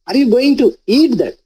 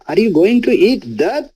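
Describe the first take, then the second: First: The stress is on the word eat. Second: The stress is on the word that.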